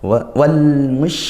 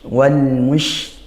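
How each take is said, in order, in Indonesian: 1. Konsonan terakhir adalah bunyi sh yang melebar. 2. Konsonan terakhir adalah bunyi sh yang melebar.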